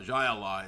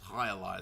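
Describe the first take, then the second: First: The first word starts with a J sound. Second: The first word starts with an H sound. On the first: The speaker calls it wrong. "It's not Jai Alai" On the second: The speaker calls it right. "it's High Alai"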